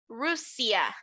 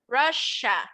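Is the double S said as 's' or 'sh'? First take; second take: s; sh. First: The middle consonant is an 's' sound. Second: The middle consonant is an 'sh' sound. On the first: The speaker calls it wrong. "I'm not going to pronounce it like an S. I'm not going to say Russia. No" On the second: The speaker calls it right. "I'm going to pronounce it like a sh"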